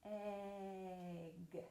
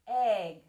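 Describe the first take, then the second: First: Soft, drawn-out "Egg"; "Egg" said low and very slowly, eeegg; really slow. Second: Said in the usual way. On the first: Shown as a demonstration. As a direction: stretch the vowel of "Egg" right out. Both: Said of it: "Let's say it really slowly".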